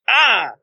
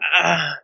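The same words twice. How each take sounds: First: It is a loud scream. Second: It is a quiet, flat sound.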